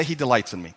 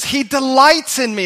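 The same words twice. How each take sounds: First: Said to a neighbour. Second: Higher and louder, proclaimed with conviction; confident declaration. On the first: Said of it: "You just say". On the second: Preacher modelling David's confidence for the congregation, loud and bold. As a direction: announce it boldly like David. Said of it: "and David says". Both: Shown as a demonstration.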